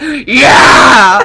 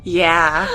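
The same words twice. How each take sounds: First: Huge, drawn-out roaring shout; hammed-up roar. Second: Said in the usual way. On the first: Girl redoing her answer to the boy, mock roar. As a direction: bellow it long and over the top. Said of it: "I roared".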